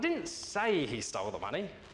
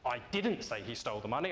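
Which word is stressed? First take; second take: say; didn't. First: The word 'say' is stressed. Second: The word 'didn't' is stressed. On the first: The speaker only hinted at it. "I merely suggested it" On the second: The speaker is annoyed at being accused of saying it. "I now seem cross that you think I did"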